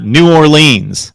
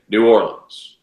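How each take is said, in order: First: "New Orleans" loud and drawn out, ending "LEENZ"; wrong long-E Orleans. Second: "New Orleans" ending in unstressed "lins"; local New Orleans. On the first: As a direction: stretch "New Orleans" into "new or-LEENS". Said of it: "Just not New Orleans". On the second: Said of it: "you will hear, hear people say". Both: Shown as a demonstration.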